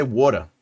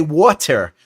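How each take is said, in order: First: "water" as "waw-tuh", no final R; New York pronunciation. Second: "water" with a clear T and final R, loud; careful standard pronunciation. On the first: New Yorker showing their own way, R-less "water". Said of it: "I say water". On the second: New Yorker showing what they don't say, over-careful "water". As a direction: overdo "water" as "waw-ter", R sounded. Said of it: "I don't even say water". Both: Shown as a demonstration.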